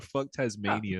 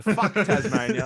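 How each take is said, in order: First: Deadpan. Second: Laughing, louder and higher. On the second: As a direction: crack up while saying it. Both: Shown as a demonstration. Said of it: "That's the hot take for this episode".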